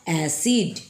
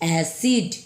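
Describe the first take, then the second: Both takes have the same delivery.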